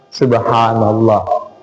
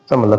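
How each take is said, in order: First: It is said slowly with every syllable clear. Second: It is rushed and slurred together very quickly. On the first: The remembrance is said carefully and fully. The speaker calls it right. "tapi pelan-pelan" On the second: The remembrance is hurried so the words are lost. The speaker calls it wrong. "bukan lagi subhanallah disebut"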